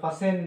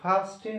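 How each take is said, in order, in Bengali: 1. মাঝখানে 't' ধ্বনিটি নীরব থাকে। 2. মাঝখানে 't' ধ্বনিটি উচ্চারিত হয়। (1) "ফাসেন দিকা উচ্চারণ হলো ফা সেন" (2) "ফাস্টিন না মানে ফাস্টেন দেবা নয়তো"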